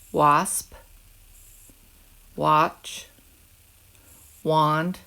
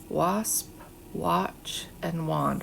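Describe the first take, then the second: First: Each word said alone, louder, with a pause after; words to echo. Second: Said in the usual way. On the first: Shown as a demonstration. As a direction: model each word clearly for the class to repeat. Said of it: "when I say them, you repeat 'em". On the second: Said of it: "What is the vowel sound you heard".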